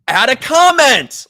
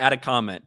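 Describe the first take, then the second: First: It is said in a super excited way. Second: It is said in a plain, flat way.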